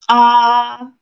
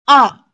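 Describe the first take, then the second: First: The syllable carries the first tone. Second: The syllable carries the fourth tone. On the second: "and the fourth"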